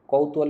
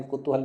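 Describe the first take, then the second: First: "कौतूहल" opening on a wide "kau"; accepted pronunciation. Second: "कुतूहल" opening on a short "ku"; alternative pronunciation. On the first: Teacher gives students one valid form, au vowel. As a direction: start "कौतूहल" with the diphthong au, "kautuhal". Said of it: "कौतूहल भी ठीक है". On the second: Teacher gives students the other valid form, short u vowel. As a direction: start "कुतूहल" with a short u, "kutuhal". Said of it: "कुतूहल भी ठीक है". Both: Shown as a demonstration.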